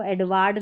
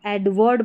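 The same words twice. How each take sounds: First: "एडवर्ड" said as ed-waad; wrong demo "एडवर्ड" with open aa in the ending; mistaken long vowel. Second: "एडवर्ड" with short second vowel; "एडवर्ड" ending in -wurd, not -waad; ward as wurd. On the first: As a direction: say "एडवर्ड" with -waard at the end. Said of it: "नहीं बोलेंगे". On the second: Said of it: "बोलना है इसको". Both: Shown as a demonstration.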